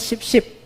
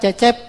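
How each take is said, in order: First: The name begins with an 'sh' sound. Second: The name begins with a 'ch' sound.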